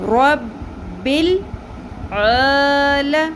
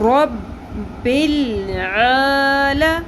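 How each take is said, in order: Both takes have the same delivery.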